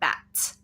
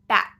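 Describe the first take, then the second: First: The final T is released with a puff of air. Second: The final T is held and not released. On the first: The speaker calls it wrong. "I did actually kind of do a regular T there ... that is actually too much" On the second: The speaker calls it right. "If I'm talking normally amongst my friends, I will just say bat"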